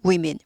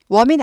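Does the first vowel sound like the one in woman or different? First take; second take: different; same. First: The first vowel changes from the one in woman. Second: The first vowel matches the one in woman. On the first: The speaker calls it right. "women이죠" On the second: The speaker calls it wrong. "women 아니에요"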